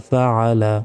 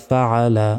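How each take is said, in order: The two takes are said the same way.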